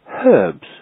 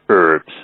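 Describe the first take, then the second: First: The initial h sound is clearly pronounced. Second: The initial h sound is dropped entirely. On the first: The speaker calls it right. "the H is pronounced herbs" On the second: The speaker calls it wrong. "not herbs"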